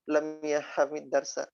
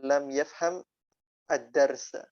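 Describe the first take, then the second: First: Yafham runs into the next word with an i. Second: Yafham ends in m with a stop after it. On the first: "tidak selamanya lam yahhamid darsa" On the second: "ada tempo, intonasi, ada berhenti-berhentinya"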